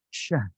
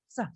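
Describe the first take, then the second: First: The hissing sound is thick, a broad sh. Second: The hissing sound is thin, a narrow s. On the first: The speaker calls it right. "Kalau kita gurah ayam tebal pasti shin" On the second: The speaker calls it wrong. "Gak mungkin sah, sah gitu kan tipis gak mungkin kan?"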